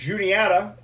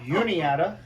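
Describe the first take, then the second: First: The name is said with English pronunciation. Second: The name is said with Spanish-style pronunciation.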